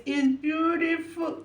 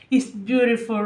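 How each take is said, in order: First: Higher, softer and slow, full of feeling; moved and tender. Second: Said in the usual way. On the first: Real, not acted. Vlogger repeating praise for the performance, slow and tender. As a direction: let "It's beautiful" melt out slowly. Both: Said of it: "sorry for being emotional".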